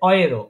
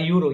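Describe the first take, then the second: First: The word begins with an 'oy' sound. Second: The word begins with a 'yoo' sound. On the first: This is how Germans say it. "ডয়েচরা বলে" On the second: This is how it is said in Bengali and English. "আমরা যেটা বললাম ইউরোপ বলি না?"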